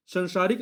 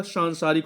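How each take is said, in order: First: संसारिक with a short first vowel; संसारिक as the wrong form, सं kept short; wrong form, shown. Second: सांसारिक with a long nasal सां; सांसारिक said right, first vowel lengthened; correct form, shown. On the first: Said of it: "संसारिक नहीं होता". (गलत उच्चारण: संसारिक, छोटा स) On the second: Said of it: "सांसारिक होता है". (सही उच्चारण: सांसारिक, लंबा सां) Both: Shown as a demonstration.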